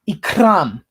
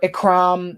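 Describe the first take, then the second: First: The R is rolled hard. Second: The R is said without a roll. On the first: The speaker calls it right. "that's how you pronounce it officially" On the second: The speaker calls it wrong. "Don't pronounce it Ikram"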